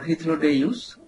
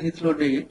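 First: The name is said in a Latinate form. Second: The name is said in a non-Latinate form.

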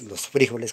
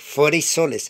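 First: The middle consonant is a throaty h-like sound. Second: The middle consonant is a hissing s sound. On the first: This is the standard form the speaker uses. "los frijoles que yo hago" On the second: This is how Antioquian women say it. "Dicen las mujeres antioqueñas... Entonces dicen que frisoles"

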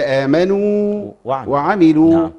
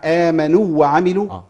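First: The long waw is held clearly before the next waw. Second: The long waw merges into the following waw. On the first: The speaker calls it right. "بيان الواو المادية" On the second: The speaker calls it wrong. "مش احنا بنسمعها"

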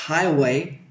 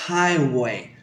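Both takes have the same delivery.

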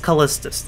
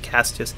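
First: The name is said with the L sound. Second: The name is said without the L sound. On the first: The speaker calls it right. "This is Callistus III, I'm pretty sure" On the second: The speaker calls it wrong. "I don't know how the hell I was pronouncing this Castius"

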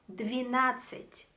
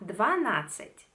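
First: The vowel after 'dv' is an 'i' sound. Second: The vowel after 'dv' is an 'a' sound. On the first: The speaker calls it right. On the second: The speaker calls it wrong. "no será"

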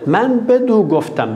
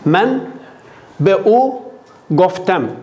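First: A d sound joins be and u together. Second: The words be and u meet with no consonant. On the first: "Onun için bir kaynaştırma dal giriyor oraya" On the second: "B-U dile zor geliyor"

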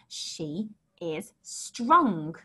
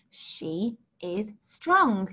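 Both takes have the same delivery.

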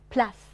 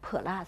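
First: The p and l are joined without a vowel. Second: A vowel is inserted between p and l. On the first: The speaker calls it right. "要发plus" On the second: The speaker calls it wrong. "那是错的，我们加了a 的音了啊"

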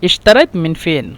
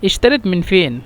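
Both takes have the same delivery.

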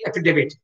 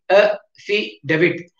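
First: The word is said smoothly without breaks. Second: The word is broken into separate syllables. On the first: "While saying, you have to say affidavit" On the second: "You have to split as per the pronunciation"

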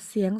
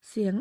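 The two takes are said the same way.

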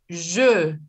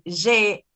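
First: The vowel sounds French-like, with rounded lips. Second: The vowel sounds Spanish-like, without rounded lips. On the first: The speaker calls it right. "digas je" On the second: The speaker calls it wrong. "en lugar de decir je"

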